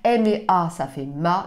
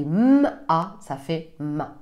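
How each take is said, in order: First: Each letter is said by its spoken name. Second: Each letter is said as its bare sound. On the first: The speaker calls it wrong. "ne dites jamais le nom de la lettre" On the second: The speaker calls it right. "dites toujours le bruit, le son qu'elle fait"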